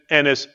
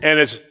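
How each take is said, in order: Both takes have the same delivery.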